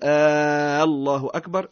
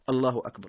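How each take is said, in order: First: The first vowel is drawn out long. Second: The first vowel is short. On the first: It asks whether God is greatest. The speaker calls it wrong. "فلا نقول" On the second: It declares that God is greatest. The speaker calls it right. "إنما نقول"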